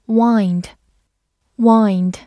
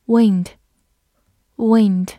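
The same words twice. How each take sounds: First: "wind" with a long i, rhyming with "find"; verb wind. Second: "Wind" with a short i, like "win" plus d; noun wind. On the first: Teacher giving the verb reading to students, long i in "wind". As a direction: stretch the i in "Wind" like "wined". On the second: Teacher reading the noun to students, short i in "Wind". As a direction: say "wind" short, as in the moving air. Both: Shown as a demonstration. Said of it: "或者读作wind".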